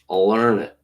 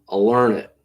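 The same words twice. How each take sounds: Both takes have the same delivery.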